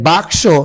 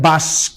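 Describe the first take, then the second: First: The cluster is k before s. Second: The cluster is s before k. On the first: "বাক্স হয়ে যাবে" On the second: "হয়ে যাবে বাস্ক"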